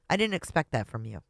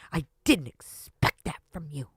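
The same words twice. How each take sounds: First: It is said in a calm, neutral tone. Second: It is said in a harsh, aggressive tone. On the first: The writer is hurt, not hostile. The speaker calls it right. "I don't think it was written in that tone" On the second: The writer sounds hostile and accusing. The speaker calls it wrong. "She says it like it's all aggressive"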